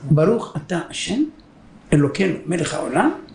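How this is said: It is said in three parts with pauses.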